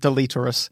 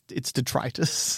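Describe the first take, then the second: First: The word is said with an added L sound. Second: The word is said without any L sound. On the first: The speaker calls it wrong. "I called it deleterus until people were like" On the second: The speaker calls it right. "it's detritus"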